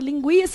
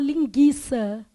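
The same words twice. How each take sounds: First: A 'u' sound is heard after the g. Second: No 'u' sound is heard after the g. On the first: The speaker calls it right. "Todo mundo está vendo que o U é pronunciado?" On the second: The speaker calls it wrong. "Ou você fala linguiça? Fala? Não"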